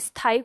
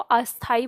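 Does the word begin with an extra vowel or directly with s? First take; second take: directly s; extra vowel. First: The word starts directly with the s sound. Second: An extra a vowel comes before the s. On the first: The speaker calls it right. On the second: The speaker calls it wrong.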